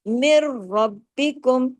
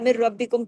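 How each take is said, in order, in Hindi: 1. दोहरे र और ब दोनों साफ़ तौर पर खींचे जाते हैं। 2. दोहरे र और ब ढीले ढंग से बोले जाते हैं, छोटे कर दिए जाते हैं।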